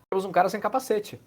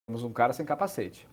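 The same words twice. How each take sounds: First: Surprised spotting. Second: Said in the usual way. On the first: Real, not acted. Noticing player without helmet.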